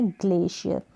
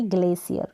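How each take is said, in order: First: ग्लेशियर with "sh" in the middle; sh pronunciation. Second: ग्लेशियर with "s" replacing the "sh"; mistaken s sound. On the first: Teacher giving learners the sound to remember, ग्लेशियर with sh. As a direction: model ग्लेशियर as "GLAY-shi-yar". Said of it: "ये pronunciation आपको ऐसे ही ध्यान रखना है". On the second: Teacher contrasting the error for learners, ग्लेशियर said with s. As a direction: show the error, ग्लेशियर as "GLAY-si-ar". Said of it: "ना कि". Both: Shown as a demonstration.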